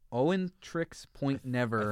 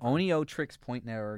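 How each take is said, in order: First: The name begins with the sound 'Owen'. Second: The name begins with the sounds 'Oneo'. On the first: The speaker calls it wrong. "I always mispronounce like this band name" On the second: The speaker calls it right. "I think it's Oneo Trix Point Never"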